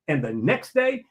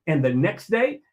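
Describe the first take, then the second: No difference in how they are said.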